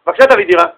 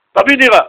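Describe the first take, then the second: First: Request with an added please; polite request. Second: Short, higher-pitched blunt demand. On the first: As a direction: ask politely but still plainly. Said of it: "איך הוא יבקש?". (בקשה מנומסת ופשוטה) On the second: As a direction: demand it with no courtesy at all. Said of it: "איך הוא יבקש מהעשיר?". (דרישה בוטה, בלי נימוס) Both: Shown as a demonstration.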